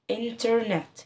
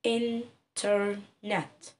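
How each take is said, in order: First: Said in the usual way. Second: انترنت said very slowly, split into its three beats; slow, syllabified classroom demo; syllable by syllable. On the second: Shown as a demonstration. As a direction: stretch انترنت out, one chin tap per syllable. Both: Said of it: "وابتدي انطق لي الكلمة".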